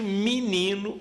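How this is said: It is said in a southern Brazilian accent. "no Sul"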